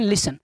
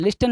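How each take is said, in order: First: लिसन with no T sound; correct silent-T pronunciation. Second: लिस्टन with the T pronounced; wrong pronunciation. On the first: Teacher answering with the proper reading, silent T. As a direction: say लिसन as "lissen", S straight into "en". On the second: Teacher asking pupils to correct it, wrong pronunciation. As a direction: sound the T in लिस्टन. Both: Shown as a demonstration. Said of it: "लिस्टन नहीं, क्या होता है?".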